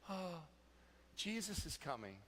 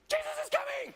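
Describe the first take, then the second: First: It is said in a calm, pleased tone. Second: It is said in a panicked, flustered tone.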